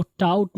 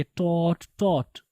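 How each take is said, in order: First: "टाउट" with an ow glide, like "tout"; mispronounced taught. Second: "टॉट" with one long aw, "tawt"; correct taught. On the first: ("टाउट" غلط تلفظ، "ٹاؤٹ") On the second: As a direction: model "टॉट" twice, no ow glide. ("टॉट" درست تلفظ، لمبی "آ" گول کر کے) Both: Shown as a demonstration. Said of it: "आप इसको टाउट नहीं पढ़ेंगे".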